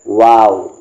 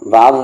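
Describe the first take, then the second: First: The first sound is made with fully rounded lips. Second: The first sound is made without rounded lips. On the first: The speaker calls it right. "आपके जो होंठ हैं वो बिल्कुल राउंड हो जाएंगे" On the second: The speaker calls it wrong. "वाव भी नहीं कहना है"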